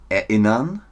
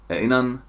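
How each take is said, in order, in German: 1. Jeder Laut wird voll und sorgfältig ausgesprochen. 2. Die Laute werden locker abgeschwächt. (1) "Das ist Theaterdeutsch" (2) "Machen wir jetzt mal Straßendeutsch"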